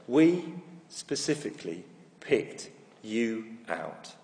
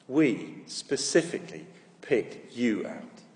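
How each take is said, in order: First: Slow, each word weighted evenly; slow, every word stressed. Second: Slow repeat, stressing each word; slow, every word stressed. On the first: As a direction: spell it out slowly to a child, every word stressed. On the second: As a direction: say it again slowly, weighting every word. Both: Retold or imitated. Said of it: "put an emphasis on every word".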